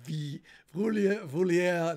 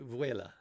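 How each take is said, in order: First: It is said as vi-vulia. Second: It is said as vuela. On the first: The speaker calls it wrong. "not Vi Vulia" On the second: The speaker calls it right. "correct pronunciation of my channel name is Chili Vuela"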